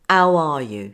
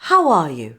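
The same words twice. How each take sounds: First: The h is dropped before the vowel. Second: A soft h is sounded before the vowel. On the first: The speaker calls it wrong. "there is no obvious H dropping. So we don't say" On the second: The speaker calls it right. "we prepare the h for the following vowel like this"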